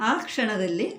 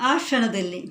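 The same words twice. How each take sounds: The two takes are said the same way.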